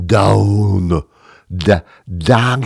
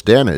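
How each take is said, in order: First: Drawn-out, mangled "down"; mock mispronunciation. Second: Said in the usual way. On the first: Shown as a demonstration. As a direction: garble "down" as a comically wrong brand name. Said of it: "It's not da". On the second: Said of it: "I can pronounce that".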